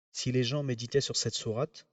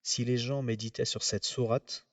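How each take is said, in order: Both takes have the same delivery.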